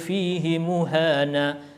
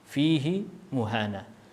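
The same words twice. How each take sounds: First: The pronoun vowel in fihi is kept short. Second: The pronoun vowel in fihi is lengthened. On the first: "dibaca pendek" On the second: "Ini yang membaca dengan silah"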